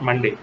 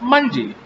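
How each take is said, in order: First: The stress is on the second syllable. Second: The stress is on the first syllable. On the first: The speaker calls it wrong. "not Monday, not day" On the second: The speaker calls it right. "exact pronunciation"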